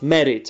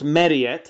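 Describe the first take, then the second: First: The past tense ending is clipped and short. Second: The past tense ending is drawn out and long. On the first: The speaker calls it right. "it has to be short" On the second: The speaker calls it wrong. "Not married"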